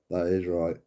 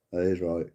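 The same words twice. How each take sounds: The two takes are said the same way.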